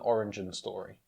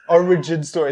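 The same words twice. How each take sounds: First: The word is slurred, sounding partly like orange. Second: The word is said clearly as origin. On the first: The speaker calls it wrong. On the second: The speaker calls it right.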